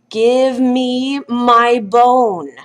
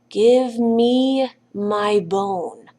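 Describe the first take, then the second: First: It is said a little louder. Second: It is said at its quietest.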